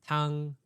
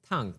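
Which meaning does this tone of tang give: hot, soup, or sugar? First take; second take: soup; hot. First: It is said with the tone meaning soup. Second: It is said with the tone meaning hot. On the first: The word means soup. "So soup" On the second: The word means hot.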